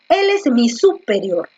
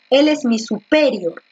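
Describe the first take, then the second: First: The stress is on the first syllable, su. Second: The stress is on the second syllable, pe.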